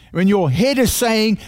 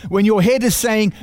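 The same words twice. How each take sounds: The two takes are said the same way.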